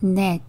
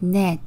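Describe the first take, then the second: Both takes have the same delivery.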